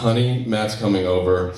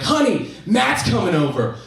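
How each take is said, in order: First: It is said in a worried, serious tone. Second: It is said in a light, cheerful tone.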